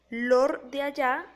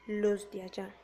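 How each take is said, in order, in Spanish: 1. La primera palabra termina en sonido r. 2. La primera palabra termina en sonido s. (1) "transforma la S en R" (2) "se debería decir los de allá"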